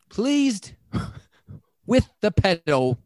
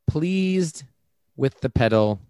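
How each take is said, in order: First: It is read in a put-on British accent. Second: It is read in the speaker's plain accent.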